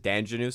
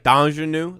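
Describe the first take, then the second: First: The name is pronounced with English sounds. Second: The name is pronounced with French sounds. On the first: This is how people commonly say it. "but everyone says Danjanu" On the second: This follows the spelling as a French name. "it's spelled like Danjanu, like it's French"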